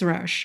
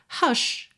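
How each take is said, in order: First: The R sounds like an English R. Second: The R sounds like a Portuguese throaty R. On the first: "se eu estiver falando inglês" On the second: "com a fonética brasileira"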